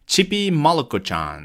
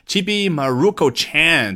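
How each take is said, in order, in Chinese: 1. 这个名字的发音接近日语。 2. 这个名字是用美式英语口音说的。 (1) "那是接近于日语的发音啊" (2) "这个美国人如果说Chibi Maruko-chan"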